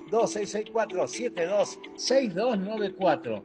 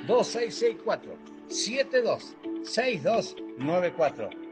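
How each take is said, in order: First: The number is said fast. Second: The number is said slowly.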